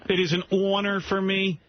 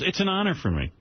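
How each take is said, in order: First: It is said in a put-on announcer voice. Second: It is said in a plain everyday voice. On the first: It mocks a pompous radio host. The speaker calls it wrong. "I'm a professional radio announcer" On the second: This is how a normal person would say it. The speaker calls it right. "Just say it's an honor"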